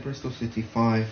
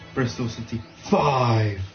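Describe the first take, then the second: First: The word five is said at normal loudness. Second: The word five is shouted loudly. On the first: "He doesn't say Bristol City five" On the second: "he goes Bristol City five. He shouts it"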